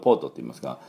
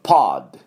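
First: It is said with a Japanese pronunciation. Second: It is said with an American pronunciation.

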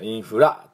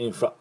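First: The final vowel is said fully and clearly. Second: The final vowel is short and weak. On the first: The speaker calls it wrong. "インフラとしっかり言わなくて" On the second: The speaker calls it right. "ちょっとあっていうだけで"

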